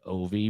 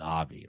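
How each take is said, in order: First: The name starts with an 'oh' vowel. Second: The name starts with an 'ah' vowel. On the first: "I guess you could pronounce it O V" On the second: "I think it's Avi, like obviously"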